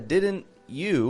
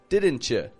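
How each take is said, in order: First: The t and y sounds stay separate. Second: The t and y blend into ch. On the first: The speaker calls it wrong. "it's not a didn't you" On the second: The speaker calls it right. "but didn't you? ... mush it together to sound like a chew"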